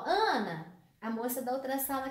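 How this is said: Ana is called out, then the phrase runs on. The speaker is calling Ana to tell her something. "Esse Ana é um chamado, é um vocativo"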